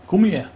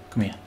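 First: High, loud demand to come closer; raised, urgent command; insistent shout. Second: Said in the usual way. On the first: Real, not acted. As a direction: call out sharply to a fleeing foe. Repeated call while chasing opponent.

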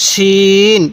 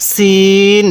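First: শিন with a thick sh and long-held vowel; thick sheen. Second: সিন with a thin s and long-held vowel; thin seen. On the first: Teacher contrasts two confused letters, thick sh in শিন. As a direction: make the sh of শিন full, then stretch it evenly. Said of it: "শিনের আওয়াজটা মোটা হবে". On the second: Teacher has learners read along, thin s in সিন. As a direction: keep the s of সিন thin, then stretch it evenly. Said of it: "সিনের আওয়াজটা চিকন হবে". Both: Shown as a demonstration.

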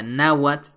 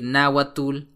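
First: "náhuatl" as NA-wat, no -ul; correct final TL. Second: "náhuatl" wrongly ending in -tul; common mistake. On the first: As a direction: end "náhuatl" on a voiceless t or ts. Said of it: "que en realidad se pronuncia". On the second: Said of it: "uno de los errores más comunes". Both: Shown as a demonstration.

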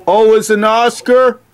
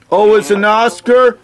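The two takes are said the same way.

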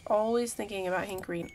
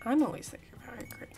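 First: Said in the usual way. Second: Fast breathy whisper, like confessing a secret. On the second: Pretend. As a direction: whisper it quickly to yourself.

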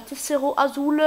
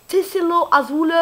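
First: Said in the usual way. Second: Mock Spanish accent on "Tessero Azul", slowed and raised; hammed-up Spanish accent, higher and louder. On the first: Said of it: "Avec un accent espagnol". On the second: Shown as a demonstration. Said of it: "Avec un accent espagnol et ça fait T".

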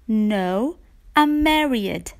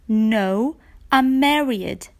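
Both takes have the same delivery.

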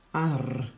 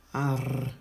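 First: "Ar" voiced in a changed demo voice; sounded-out syllable. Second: Said in the usual way. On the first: Shown as a demonstration. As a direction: model "Ar" for the class as one blended sound. (silaba „Ar” rostită demonstrativ) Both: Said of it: "Acum am A și R".

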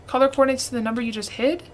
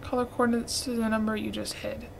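First: Fast, baffled repeat ending on a question; quick puzzled read-back of the hint; puzzled quick echo. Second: Reading hint quietly. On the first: Real, not acted. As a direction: rattle it back, confused. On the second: Shown as a demonstration. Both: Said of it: "repeats it back".

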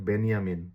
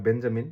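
First: বেনিয়ামিন with a y glide, "Ben-ya-min". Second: বেঞ্জামিন with a hard j, "Ben-ja-min"; English J. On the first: Teacher showing the German reading, J as Y. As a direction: swap j for y in বেনিয়ামিন. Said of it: "জে কে ওয়াই এর মতো". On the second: Teacher giving the English reading, English J. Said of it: "ইংরেজিতে জে উচ্চারণ করলে হয়". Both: Shown as a demonstration.

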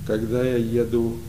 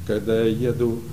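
The two takes are said the same way.

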